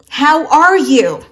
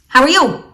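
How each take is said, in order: First: Each word is clearly and fully enunciated. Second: The words are glided together and swallowed. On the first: The speaker calls it right. "learn to pronounce things clearly in a sentence" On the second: The speaker calls it wrong. "Instead of saying"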